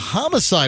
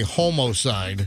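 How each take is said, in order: First: The first syllable sounds like 'hom'. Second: The first syllable sounds like 'homo'. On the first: This is the everyday way to say it. "this is a homicide investigation now" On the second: This is the technically prescribed way to say it. "technically, I think you're supposed to say homicide. But I guess we don't want to say homo"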